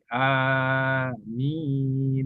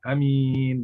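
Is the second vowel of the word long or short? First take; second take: long; short. First: The second vowel is drawn out long. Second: The second vowel is said short. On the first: The speaker calls it right. "minnya panjang" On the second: The speaker calls it wrong. "Bukan amin"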